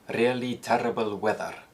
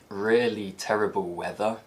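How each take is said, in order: First: It is spoken in a Scottish accent. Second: It is spoken in a standard British accent.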